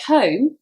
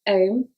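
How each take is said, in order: First: The initial h is pronounced. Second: The initial h is dropped.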